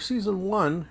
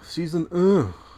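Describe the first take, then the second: First: It is said with an English pronunciation. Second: It is said with a French pronunciation.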